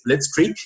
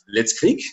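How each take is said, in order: First: The word has an American English pronunciation. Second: The word has a German pronunciation. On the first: "in the American English, it's Blitzkrieg" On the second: "in German, you also pronounce it Blitzkrieg"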